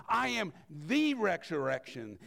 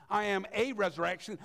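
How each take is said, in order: First: "the" weighted and held before "resurrection"; stress on THE. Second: Said in the usual way. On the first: Shown as a demonstration. Preacher correcting himself, leaning on "the". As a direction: lean on "the" in "I am the resurrection".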